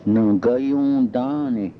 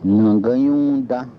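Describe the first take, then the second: First: Nagayundane drawn out slowly, syllable by syllable; slow careful repeat. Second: Said in the usual way. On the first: Shown as a demonstration. Teacher repeats the word slowly for students to copy. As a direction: stretch out nagayundane so learners catch every sound. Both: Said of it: "Don't tell".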